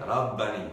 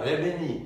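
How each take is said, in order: First: The first vowel is an open ah sound. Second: The first vowel is narrower, not an open ah. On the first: The speaker calls it right. "আপনি বলবেন রাব্বানি" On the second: The speaker calls it wrong. "আপনি বলবেন না"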